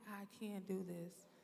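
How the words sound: It sounds doubtful and unconvinced.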